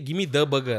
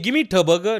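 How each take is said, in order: First: 'The' starts with a soft D-like sound. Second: 'The' starts with a hard T sound. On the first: The speaker calls it right. "You say" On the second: The speaker calls it wrong. "You don't say"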